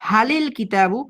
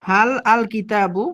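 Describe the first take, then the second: First: The words are linked with an added i sound. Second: Each word is said separately, without linking.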